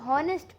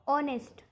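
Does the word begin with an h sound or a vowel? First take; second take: h sound; vowel. First: The word begins with an h sound. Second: The word begins with a vowel sound. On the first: The speaker calls it wrong. "बहुत लोग इसको हॉनेस्ट पढ़ते हैं" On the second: The speaker calls it right. "एच हमारा silent letter है"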